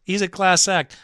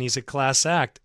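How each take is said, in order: First: Class said higher with a falling tune; He's a class act, landing on class; emphatic repeat. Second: Said in the usual way. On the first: Shown as a demonstration. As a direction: lean hard on class, say it with conviction.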